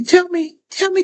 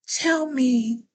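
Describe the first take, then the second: First: A sudden eager push on tell; excited burst. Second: Said in the usual way. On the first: Real, not acted. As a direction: tell me, sharp, louder and higher with excitement. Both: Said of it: "I'm getting excited".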